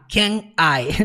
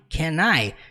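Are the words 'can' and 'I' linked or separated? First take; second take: separated; linked. First: The two words are said separately, with a break. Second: The final n runs straight into the next word. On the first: The speaker calls it wrong. "nunca falar can I" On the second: The speaker calls it right. "junta com I"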